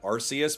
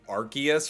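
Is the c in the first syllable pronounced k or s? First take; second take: s; k. First: The first syllable sounds like arse, with s. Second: The first syllable sounds like ark, with k. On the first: The speaker calls it wrong. "rather than Arceus, because otherwise that would be an Arse phone" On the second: The speaker calls it right. "that's what like solidified it to being Arceus"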